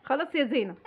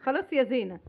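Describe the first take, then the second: No difference in how they are said.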